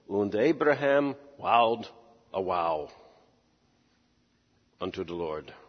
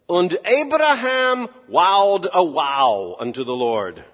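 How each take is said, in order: First: It is said in a grave, serious tone. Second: It is said in a casual, plain tone.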